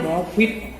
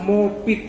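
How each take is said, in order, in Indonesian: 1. Konsonan tengahnya bunyi f. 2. Konsonan tengahnya bunyi p. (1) "Sebetulnya MOFIT" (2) "sering dikatakan MOPIT"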